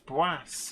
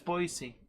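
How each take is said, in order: First: The name is said with a French-sounding pronunciation. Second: The name is said with an ordinary English pronunciation. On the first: The speaker calls it wrong. "I thought it was Boise or. ... Maybe there's a bit of French in me" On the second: The speaker calls it right. "I'm sure it's Boise"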